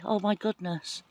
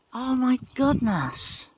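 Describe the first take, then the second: First: Said in the usual way. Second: Amazed. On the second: Real, not acted. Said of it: "That was exciting for me".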